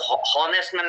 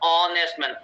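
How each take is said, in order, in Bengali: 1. Honest শব্দটি একটি উচ্চারিত h ধ্বনি দিয়ে শুরু হয়। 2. Honest শব্দটি একটি স্বরধ্বনি দিয়ে শুরু হয়, কোনো h ধ্বনি নেই। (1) "এটা কিন্তু হ honest man না কিন্তু।" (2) "এটা হচ্ছে honest man অ"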